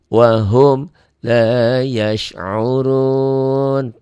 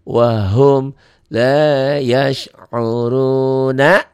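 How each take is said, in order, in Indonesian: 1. Kata terakhir berakhir pada konsonan 'n'. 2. Kata terakhir berakhir dengan vokal 'na'.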